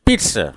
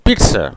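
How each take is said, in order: First: The middle consonant sounds like ts. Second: The middle consonant sounds like ts.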